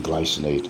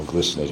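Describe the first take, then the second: First: Glycinate with first syllable like "glice"; long-i pronunciation. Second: Glycinate with first syllable like "gliss"; short-i pronunciation. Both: Shown as a demonstration. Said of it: "however you want to pronounce it".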